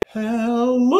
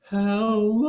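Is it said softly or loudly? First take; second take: loudly; softly. First: It is said more loudly. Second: It is said softly and gently.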